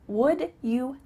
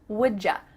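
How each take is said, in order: First: The second word is a full 'you' sound. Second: The second word is a linked 'ja' sound. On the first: "Would you help me becomes" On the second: "we are going to say ja"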